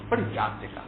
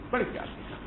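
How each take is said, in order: First: Said in the usual way. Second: بڑے پیار سے کہا whispered, soft and higher; tender whisper. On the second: Shown as a demonstration. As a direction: whisper it as the loving words themselves.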